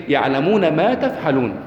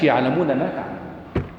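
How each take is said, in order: First: "يعلمون ما تفعلون" drawn out slowly with weight on "ما تفعلون"; stressed right wording. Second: "يعلمون ما تعملون" dropped low and quiet as the wording not used; rejected wording. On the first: Teacher giving students the verse's true wording, slow and emphatic. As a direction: lean slowly into "تفعلون" as the correct word. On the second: Teacher showing the class the wording God didn't use, quiet and low. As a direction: let "تعملون" fall away softly. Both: Shown as a demonstration. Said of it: "ما قالش".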